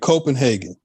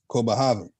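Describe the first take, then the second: First: The city name has an English pronunciation. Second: The city name has a non-English pronunciation. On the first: This is the familiar modern form. "we say Copenhagen" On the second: This is the older original form. "But the original was Copenhagen"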